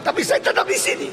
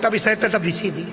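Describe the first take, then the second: First: High, breathless mock laugh through the words; mock laughing complaint, higher. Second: Said in the usual way. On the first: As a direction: chuckle at the irony.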